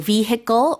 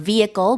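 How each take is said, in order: First: The H sound in the middle is pronounced. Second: The H sound in the middle is silent. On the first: "the H in there can or cannot be pronounced" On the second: "with a silent H"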